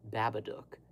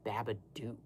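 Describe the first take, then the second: First: "Babadook" with the last syllable rhyming with look, short oo; "Babadook" said the right way, -dook like look; correct Babadook. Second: "Babadook" ending like Duke, long oo; "Babadook" said the common wrong way, -dook as Duke. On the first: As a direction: say "Babadook" ending in -dook as in book. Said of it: "it is very clearly". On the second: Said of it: "the one thing people usually say is Duke". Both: Shown as a demonstration.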